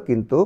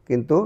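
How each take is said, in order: Both takes have the same delivery.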